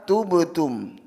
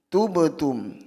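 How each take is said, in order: The two takes are said the same way.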